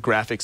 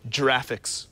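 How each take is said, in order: First: The first g sounds like the g in go. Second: The first g sounds like the j in jam. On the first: The speaker calls it right. "it stands for graphics" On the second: The speaker calls it wrong. "not giraffics"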